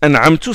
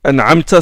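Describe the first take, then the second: First: The word ends with a short U vowel. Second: The word ends with a short A vowel. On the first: The speaker calls it wrong. "certains disent an'amtu, ça c'est grave" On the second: The speaker calls it right. "au lieu de dire"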